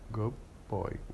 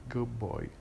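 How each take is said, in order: First: The word good ends with a b sound. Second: The same.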